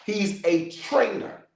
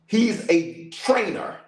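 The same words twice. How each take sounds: The two takes are said the same way.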